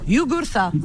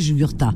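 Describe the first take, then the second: First: The name is said the Kabyle way. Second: The name is said the common French way. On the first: This is the speaker's correct version of the name. The speaker calls it right. "J'ai l'accent kabyle là" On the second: This is how some other people say the name. The speaker calls it wrong. "il y en a qui disent Jugurta. C'est pas pareil"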